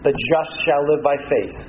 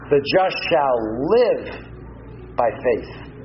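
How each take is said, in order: First: The stress is on the word just. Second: The stress is on the word live.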